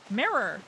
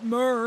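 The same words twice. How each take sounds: First: The word is said with two clear syllables. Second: The word is squashed into about one syllable. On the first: The speaker calls it right. "There were quite clearly two syllables" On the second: The speaker calls it wrong. "that's not what I said though"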